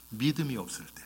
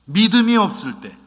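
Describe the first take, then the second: First: Said softly, trailing down; quiet statement. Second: Louder and higher, the repeated 믿음이 없을 때 hammered home; emphatic repeat. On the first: Preacher names the one reason for rebuke, quietly. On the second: Preacher repeats the key phrase to the congregation, loud and emphatic. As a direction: repeat it with full force. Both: Shown as a demonstration. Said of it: "딱 하나".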